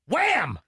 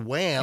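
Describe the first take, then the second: First: The word is said loudly with exclamation. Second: The word is said plainly without exclamation. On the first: The speaker calls it right. "you got to say it like that because it has an exclamation" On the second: The speaker calls it wrong. "you can't just say wham"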